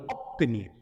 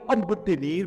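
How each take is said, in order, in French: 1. La consonne avant le t se prononce comme p. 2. La consonne avant le t se prononce comme b. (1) "mais on va dire" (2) "On ne va pas dire"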